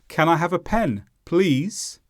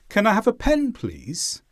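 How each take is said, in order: First: Please is heavily stressed, sounding annoyed. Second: Please is lightly stressed, sounding polite. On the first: The listener seems to have done something wrong. The speaker calls it wrong. "the word please was stressed more" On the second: A normal, courteous request. The speaker calls it right. "I didn't stress the word please too much. I used normal question intonation"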